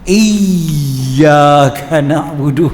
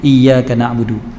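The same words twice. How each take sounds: First: The y sound is pressed hard and strongly doubled. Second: The y sound is lightly doubled. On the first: "kena tekan betul-betul" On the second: "iya iya iya iya iya dah ada lah, walaupun sedikit"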